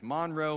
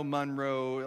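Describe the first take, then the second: First: "Monroe" with an open "ah", MAHN-roe. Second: "Monroe" with an "uh", MUN-roe. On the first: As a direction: say "Monroe," with first syllable like "mon". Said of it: "I've heard it said". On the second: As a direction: say "Monroe," with first syllable like "mun". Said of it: "like, five different ways". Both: Shown as a demonstration.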